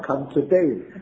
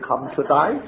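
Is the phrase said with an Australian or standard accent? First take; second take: standard; Australian. First: The phrase is said in a standard accent. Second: The phrase is said in a broad Australian accent. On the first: "or come today" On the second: "那些人说"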